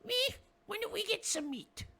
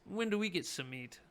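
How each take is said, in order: First: Very high, squeaky little goblin. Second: Said in the usual way. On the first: Acted. Goblin yelling down the tunnel for meat, high squeak. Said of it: "And he says". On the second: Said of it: "But what he says is".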